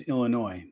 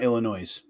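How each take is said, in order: First: "Illinois" with a silent s, ending in "noy"; correct pronunciation. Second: "Illinois" with a z sound, ill-ih-NOIZ; wrong pronunciation. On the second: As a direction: say "Illinois" ending in a buzzing z. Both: Shown as a demonstration. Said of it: "It's not Illinois".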